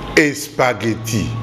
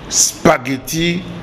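First: An extra e vowel comes before the sp. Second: The word starts directly with the sp cluster. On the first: The speaker calls it wrong. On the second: The speaker calls it right.

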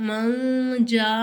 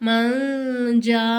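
Both takes have the same delivery.

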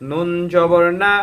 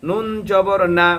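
The two takes are said the same way.

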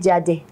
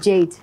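First: The word is said with a Yoruba pronunciation. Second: The word is said with an English pronunciation. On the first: "That's a Yoruba way of speaking" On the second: "instead of saying Jade"

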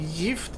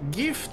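First: It is pronounced the Swedish way. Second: It is pronounced the English way. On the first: It means poison. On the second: It means a present.

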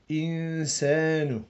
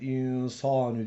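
First: The s sound is thin and light. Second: The s sound is thick and heavy. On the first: The speaker calls it right. "lakin ince" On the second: The speaker calls it wrong. "Sat varmış gibi hatalıdır o"

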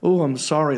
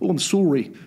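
First: It is said in a plain, non-Canadian accent. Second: It is said in an imitated Canadian accent. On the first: "they don't say like" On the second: "They go"

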